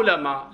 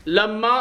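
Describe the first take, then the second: First: "لما" as la-maa, one short m; "لما" dropped back to usual pitch, single m; light-m form. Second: "لما" as lam-maa, m held, pitched high; raised, drawn "لما" with the m doubled; doubled-m form. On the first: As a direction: say "لما" lightly, without doubling the m. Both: Shown as a demonstration. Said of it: "لا يضر في المقام".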